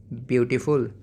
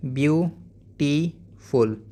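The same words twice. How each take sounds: First: Said in the usual way. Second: beautiful in three slow beats, byu... tee... ful; split into syllables. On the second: Shown as a demonstration. Teacher modelling for pupils, syllable by syllable. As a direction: break beautiful apart, pausing after byu and tee. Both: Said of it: "ऐसे ही".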